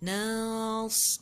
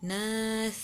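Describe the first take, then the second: First: The final s sound is clearly hissed. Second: The final s sound is not clearly hissed. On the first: The speaker calls it right. "Huruf sin itu mesti jelas" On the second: The speaker calls it wrong. "Bukannya nas"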